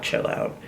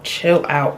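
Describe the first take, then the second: First: Whispered repeat. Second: Said in the usual way. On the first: Real, not acted. Repeating a phrase to herself.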